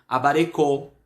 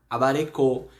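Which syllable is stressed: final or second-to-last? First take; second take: final; final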